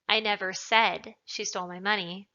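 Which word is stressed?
said. The word said carries the stress. It was implied but not said. "means that perhaps I implied it, but I didn't say it"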